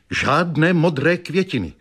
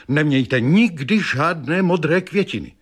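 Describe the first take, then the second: First: Higher mock warning, weight on "modré"; stress on modré. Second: Higher mock warning, weight on "nikdy"; stress on nikdy. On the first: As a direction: lean on "modré" with falling tune. (důraz na "modré", klesavě) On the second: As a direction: hit "nikdy" hard, then fall away. (důraz na "nikdy", klesavě) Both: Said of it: "vykřikla".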